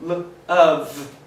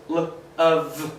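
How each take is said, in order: First: "L of" said again, louder; repeated model. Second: "l of" drawn out slowly, sound by sound; slow modelling. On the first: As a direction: repeat "L of" clearly. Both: Shown as a demonstration. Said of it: "Just like".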